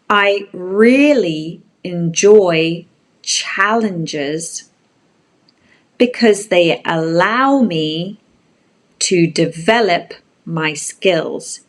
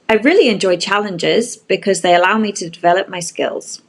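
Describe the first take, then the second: First: The sentence is read at a slow pace. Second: The sentence is read at a fast pace.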